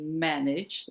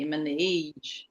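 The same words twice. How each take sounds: First: The stress is on the first syllable. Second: The stress is on the second syllable. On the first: The speaker calls it right. "say manage in the first syllable" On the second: The speaker calls it wrong. "some students struggle with pronunciation"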